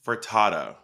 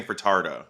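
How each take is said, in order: First: "Furtado" without the middle R, fur-TAH-toh; corrected pronunciation. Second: "Furtado" with a hard R, fur-TAR-doh; mimicked added R. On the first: Shown as a demonstration. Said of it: "You're saying Furtado". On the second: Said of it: "I'm a adding an R".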